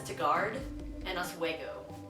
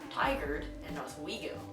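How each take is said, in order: First: The names are pronounced in an unusual, nonlocal way. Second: The names are pronounced the usual local way. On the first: The speaker calls it wrong. "I pronounce them as Tagart and Oswego, which is completely wrong" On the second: The speaker calls it right. "It's actually Tigard and Oswego"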